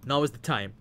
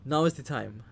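No difference in how they are said.

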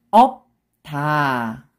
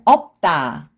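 First: 없다 split as 업, pause, long 다; syllable by syllable. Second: 없다 joined as 업따, tense tt; read together. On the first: Teacher breaking a word down for learners, syllable by syllable. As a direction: stop 없다 on p, then a separate 다. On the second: Teacher shows how it reads together, linked pronunciation. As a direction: link 없다 with a hard 따. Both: Shown as a demonstration. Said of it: "When you read it together".

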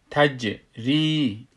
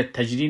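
First: تجری slowly, bounced j, long-held ī; qalqalah and madd. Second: تجری said quickly, ī not held; short vowel. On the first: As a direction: bounce the j in تجری, then stretch the ī. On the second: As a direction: run through تجری without bounce or stretch. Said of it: "اینجا تجری نمیگیم". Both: Shown as a demonstration.

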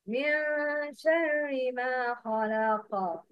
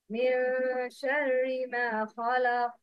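First: Slow chant, the final ق of "خلق" bouncing like "khalaqa"; recitation with qalqala. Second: Chanted verse, the final ق of "خلق" cut off; recitation without qalqala. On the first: Teacher giving students the correct option, chanted with a bounced ق in "خلق". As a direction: recite slowly, release "خلق" with an echoed q. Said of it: "Yes, number two". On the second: Teacher giving students option one, chanted with no bounce on the ق of "خلق". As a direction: recite evenly, stop "خلق" dead with no echo. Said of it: "Number one". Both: Shown as a demonstration.

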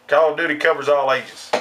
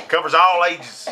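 First: Said in the usual way. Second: "all" leaned on as the key word; stress on "all". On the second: Real, not acted. Gamer repeating his point about every age, "all" stressed. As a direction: hit "all" harder than the rest.

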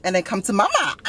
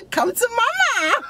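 First: Said in the usual way. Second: Higher, slower, through a laugh; laughing come to mama. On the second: Acted. Home wrecker repeats her offer, cracking up laughing. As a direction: laugh it out, high and drawn out.

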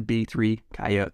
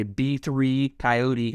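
First: Coyote as KY-oat, ending on "t"; two-syllable coyote. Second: Coyote as ky-OH-tee, rhyming with "three"; three-syllable coyote. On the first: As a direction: drop the final "ee" from Coyote. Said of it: "as opposed to". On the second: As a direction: give Coyote its final "ee". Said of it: "it has a better ring to it". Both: Shown as a demonstration.

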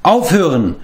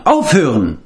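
First: Called stop, higher and firm; calling out. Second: Firm repeated call to stop; calling out again. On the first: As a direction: cut the quarrel short. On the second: Taran repeats his call to stop the quarrel. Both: A narrator's reading. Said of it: "rief Taran".

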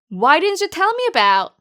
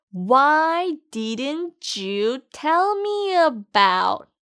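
First: Said in the usual way. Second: "Why didn't you tell me about?" drawn out word by word, each sound separate; very slow demo. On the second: Shown as a demonstration. Teacher slowly models the phrase for students to repeat. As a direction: spell it out slowly for learners to copy. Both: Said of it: "그럼 같이 발음해 볼까요?".

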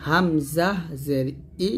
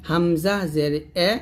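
First: Slow, drawn-out হামজা জের, then ই as "ee"; correct zer vowel. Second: Drawn-out হামজা জের, then এ as "e"; mispronounced zer vowel. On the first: Teacher models the right form for learners, pronouncing ই as "ee". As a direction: end হামজা জের ই on a clear "ee". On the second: Teacher shows learners the mistake, saying এ with an e-vowel. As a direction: end হামজা জের এ on an open "e" instead of "ee". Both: Shown as a demonstration. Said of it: "এরকম করবেন না".

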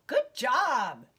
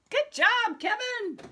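First: Said in the usual way. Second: Gushing teacher praise; excited praise. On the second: Real, not acted. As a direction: cheer him on with a big lift. Praising child, second bigger take.

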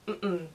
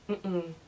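Both takes have the same delivery.

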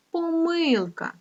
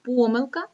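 First: Помилка stressed on МИЛ, slow and high; stress on second syllable. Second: Помилка stressed on the first syllable, ПО-милка. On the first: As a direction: stretch the middle syllable of помилка. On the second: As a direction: lean on ПО in помилка. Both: Shown as a demonstration. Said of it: "це слово має два наголоси".

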